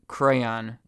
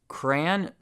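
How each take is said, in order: First: The word is said as two syllables. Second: The word is said as one syllable. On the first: "two syllables" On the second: "like cranberries, one syllable"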